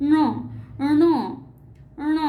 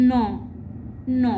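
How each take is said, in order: First: ন said with the tongue curled back to the roof; retroflex n. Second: ন said with the tongue on the teeth; dental n. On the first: Teacher drilling the মূর্ধন্য ণ sound. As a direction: curl the tongue back and hum ন. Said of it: "উচ্চারণ করতে হবে". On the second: Teacher drilling the dental ন sound. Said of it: "তাহলে সেটি হবে দন্ত ন". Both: Shown as a demonstration.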